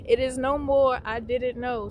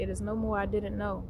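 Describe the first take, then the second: First: Loud, emphatic proclamation; punchy and raised; emphatic declaration. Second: Said in the usual way. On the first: Real, not acted. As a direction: declare it with force, fresh from a laugh. Exclaims after laughing, then repeats seriously.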